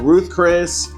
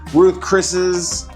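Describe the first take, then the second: First: No s sound follows either word. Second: An s sound follows Chris, none follows Ruth. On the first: "I used to call it Ruth Chris" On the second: "I used to call it"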